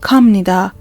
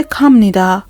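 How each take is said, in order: First: کامنیدا said kam-ni-da, never kab-ni-da; Korean pronunciation. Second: کامنیدا said kam-ni-da, with m instead of b; کامنیدا with the nasal m sound, not kab-ni-da; Korean pronunciation. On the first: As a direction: repeat کامنیدا as kam-ni-da, b sounding as m. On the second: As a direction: pronounce کامنیدا as kam-ni-da, the b turned into m. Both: Shown as a demonstration. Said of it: "ب اینجا خونده نمیشه، م خونده میشه".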